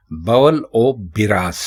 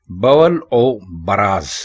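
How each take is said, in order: First: बिराज with i after the b; correct pronunciation. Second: बराज with a after the b, said slowly; wrong pronunciation. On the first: Teacher giving the correct form: बिराज with i. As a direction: say बवल और बिराज, bi-raaz. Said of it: "बे के ऊपर आप ज़बर नहीं लगाकर". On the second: Teacher slowly showing the common mistake: बराज. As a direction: say बवल और बराज, ba-raaz. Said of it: "बवल और बराज ये गलत है". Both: Shown as a demonstration.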